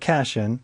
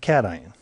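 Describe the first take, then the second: First: It is read the way the spelling looks. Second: It is said differently from how it looks. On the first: The speaker calls it wrong. "looks like cation" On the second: The speaker calls it right. "but we pronounce it cation"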